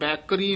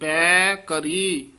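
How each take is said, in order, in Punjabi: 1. ਦੋਵੇਂ ਹਿੱਸੇ ਇੱਕ ਸ਼ਬਦ ਵਾਂਗ ਮਿਲ ਕੇ ਬੋਲੇ ਜਾਂਦੇ ਹਨ। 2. ਦੋਵੇਂ ਹਿੱਸੇ ਵੱਖਰੇ ਸ਼ਬਦਾਂ ਵਾਂਗ ਬੋਲੇ ਜਾਂਦੇ ਹਨ। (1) "ਬੈਕਰੀ ਨਹੀਂ ਕਹਿ ਦੇਣਾ" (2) "ਵੱਖਰਾ ਪਾਠ ਕਰਨਾ ਹੈ"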